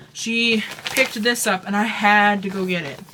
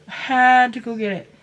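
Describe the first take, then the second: First: Said in the usual way. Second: Louder, insistent push on had; emphatic repeat. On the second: Real, not acted. Crafter telling viewers about her gnome buy, emphatic. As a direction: lean hard into had like she simply had no choice.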